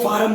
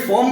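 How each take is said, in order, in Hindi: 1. यह स्वर 'ar' जैसा है। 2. यह स्वर 'or' जैसा है।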